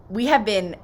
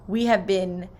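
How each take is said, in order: Both takes have the same delivery.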